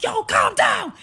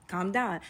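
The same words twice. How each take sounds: First: High, very loud yell; angry shout. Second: Said in the usual way. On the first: Retold or imitated. Date yelling at panicking woman through the door, shouting. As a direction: shout the order full out.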